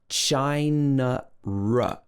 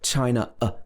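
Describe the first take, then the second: First: An r sound links the two words smoothly. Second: The words are separated, with no r sound. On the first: "It's like we're adding in this r sound" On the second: "You have to stop and start again"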